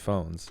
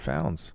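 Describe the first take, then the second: First: The vowel sounds like the one in 'phones'. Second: The vowel sounds like the one in 'pounds'. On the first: The speaker calls it right. "remember, it's phones" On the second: The speaker calls it wrong. "and I was quickly corrected"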